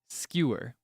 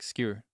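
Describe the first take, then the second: First: The word is said with two syllables. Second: The word is said with one syllable. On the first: "some people would truly enunciate it as skewer" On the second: "other people might do it as one syllable"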